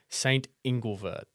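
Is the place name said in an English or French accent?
English. The name is said with an English accent. "me not trying to speak in French would say"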